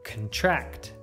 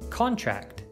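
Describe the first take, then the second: First: The stress is on the second syllable. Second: The stress is on the first syllable. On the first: It is used as a verb. "you should stress the second syllable" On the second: It is used as a noun. "you should stress the first"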